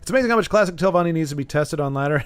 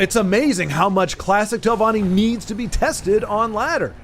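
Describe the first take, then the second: First: It is said in a plain, sincere tone. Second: It is said in an ironic, sarcastic tone.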